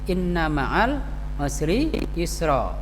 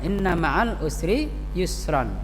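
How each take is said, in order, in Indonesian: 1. Kata terakhir berakhir dengan vokal panjang. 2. Kata terakhir berakhir dengan bunyi n.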